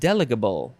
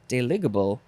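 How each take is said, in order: First: The stress falls on the first syllable. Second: The stress falls on a later syllable.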